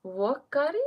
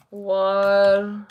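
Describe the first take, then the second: First: Wakari with no r, rising like a question. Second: Warkari, slow and careful with a clear r in the first syllable; Warkari drawn out. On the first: Checking the clan name with the viewer, unsure and rising. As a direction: try Wakari as a doubtful guess. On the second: Reading a viewer's clan name aloud, slow and careful. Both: Shown as a demonstration. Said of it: "I thought you were".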